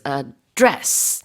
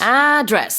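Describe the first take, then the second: First: The stress is on the second syllable. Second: The stress is on the first syllable. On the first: It is the verb meaning to deal with or speak to. "the stress of this word as a verb is on the second syllable" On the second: It is the noun meaning where someone lives. "on the first syllable"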